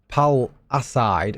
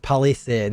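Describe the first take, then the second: First: It sounds like 'pal' plus the word 'aside'. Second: It sounds like the single word 'palisade'. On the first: The speaker calls it wrong. "I've been calling it Pal Aside" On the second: The speaker calls it right. "it's Palisade"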